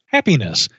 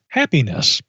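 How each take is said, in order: First: Happiness given flat, even stress on each syllable; mimicking the box's even stress on Happiness; box emphasis. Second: HAPPINESS with even syllable stress; box emphasis. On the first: Shown as a demonstration. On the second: Retold or imitated. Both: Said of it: "with that same emphasis on the syllables".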